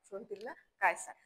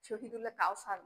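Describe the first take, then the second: First: The surname is said with a 'y' sound: Kaysar. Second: The surname is said with an 'ow' sound: Kausar. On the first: The speaker calls it right. "কায়সার" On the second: The speaker calls it wrong. "Shahidullah কাউসার না"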